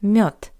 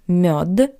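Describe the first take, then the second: First: The final consonant is a voiceless t sound. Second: The final consonant is a voiced d sound. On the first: The speaker calls it right. "the voiced consonant D at the end of this word also sounds like the paired voiceless consonant T" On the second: The speaker calls it wrong. "Not мед"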